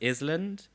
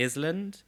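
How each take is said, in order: First: It is sounded out by general spelling rules. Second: It is sounded out by general spelling rules.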